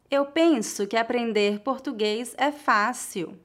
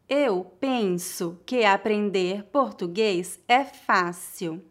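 First: The sentence is spoken at a natural pace. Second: The sentence is spoken slowly and carefully. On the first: "outra vez mais naturalmente" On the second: "Uma vez mais devagar"

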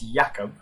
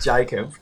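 First: The name is said with a Polish pronunciation. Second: The name is said with an Australian pronunciation. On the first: The speaker calls it right. "first of all, it's Jakub" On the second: The speaker calls it wrong. "Not Jacob. Nice Australian pronunciation"

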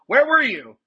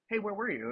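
First: It is said in an accusing tone. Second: It is said in a friendly tone.

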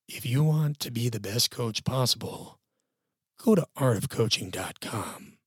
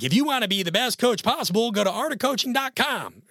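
First: It is read in a sad, somber voice. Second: It is read in a Western drawl.

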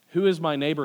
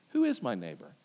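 First: It is asked as a sincere, good-faith question. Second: It is asked as a challenging, bad-faith question.

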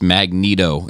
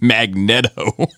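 First: The first part does not sound like magnet. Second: The first part sounds like the word magnet. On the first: The speaker calls it wrong. "Why the fuck is Magneto pronounced Magneto?" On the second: The speaker calls it right. "It should be Magneto, as in magnet"

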